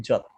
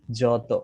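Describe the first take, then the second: First: "যত" cut short on the final t, jot, no vowel after; "যত" closed on the consonant with no o at the end; vowel dropped. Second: "যত" said with its final vowel sounded, jo-to; "যত" ending openly on the o vowel. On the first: Teacher showing hasanta removing the vowel, clipped ending. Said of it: "কিন্তু আমি যদি নিচে হসন্ত দেই". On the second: Teacher showing students the inherent vowel, spoken clearly. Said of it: "এই যত বললে দেখেন আপনি অ উচ্চারণ করছেন". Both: Shown as a demonstration.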